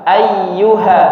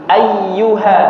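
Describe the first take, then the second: No difference in how they are said.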